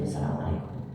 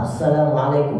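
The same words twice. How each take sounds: First: The greeting is said quietly. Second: The greeting is said loudly. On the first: Only the person beside hears it. The speaker calls it right. "Tak perlu juga terlalu dijahar. Sir saja" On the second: It disturbs the whole gathering. The speaker calls it wrong. "Tidak perlu yang salam terlalu gede"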